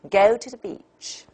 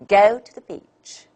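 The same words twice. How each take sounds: First: The first and last stand out; middle weak. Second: The same.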